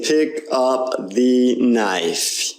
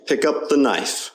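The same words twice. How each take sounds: First: "pick up the knife" word by word, every vowel full; over-pronounced. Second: "pick up the knife" run together, "the" as thuh; natural linked schwa. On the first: Teacher showing the mistake, "pick up the knife" word by word. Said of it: "we're not saying pick up the knife". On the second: Teacher correcting students, "pick up the knife" linked and reduced. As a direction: link "pick up the knife", swallowing "the". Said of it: "We're saying pick up the knife". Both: Shown as a demonstration.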